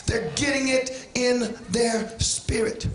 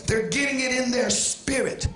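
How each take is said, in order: First: Slow preacher's repetition, spacing out the words; slow, deliberate repeat. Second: Said in the usual way. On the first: Real, not acted. Preacher repeats it for the church, slow and deliberate. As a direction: draw the phrase out so it sinks in.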